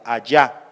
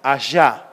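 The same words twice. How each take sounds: First: "allá" con la ll cerrada y firme; elle oclusiva. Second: "allá" con la ll suave y fricativa; elle fricativa. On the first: Shown as a demonstration. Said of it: "en lugar de hacerla oclusiva". (ll oclusiva) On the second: Retold or imitated. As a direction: di "allá" a la sudamericana, arrastrando la ll. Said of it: "las personas de Sudamérica dicen". (elle sudamericana)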